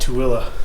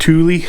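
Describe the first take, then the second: First: The name is said the way locals say it. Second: The name is said the way visitors say it. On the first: Someone from the area is saying it. "all those locals, we call it" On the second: An outsider to the area is saying it. "A lot of people that come here to Utah pronounce it"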